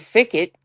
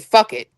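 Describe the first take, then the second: First: The first word has an 'i' vowel. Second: The first word has a 'u' vowel. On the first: The speaker calls it wrong. "you don't say fick it" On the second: The speaker calls it right. "you say fuck it"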